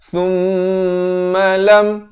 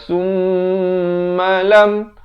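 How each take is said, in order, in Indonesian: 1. Bunyi m dibaca pendek. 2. Bunyi m dipanjangkan. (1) "izhar syafawi, jangan dipanjangkan" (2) "Jangan baca summalam"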